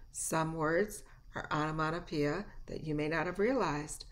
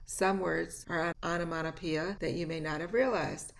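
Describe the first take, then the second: No difference in how they are said.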